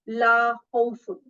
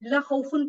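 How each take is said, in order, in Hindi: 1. 'la' में स्वर को लंबा खींचा जाता है। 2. 'la' में स्वर को छोटा काटा जाता है।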